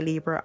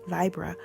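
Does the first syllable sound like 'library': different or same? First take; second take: different; same. First: The first syllable sounds unlike in 'library'. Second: The first syllable sounds like in 'library'. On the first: "But you can say Libra" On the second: "the correct way to say it because it comes from the word library"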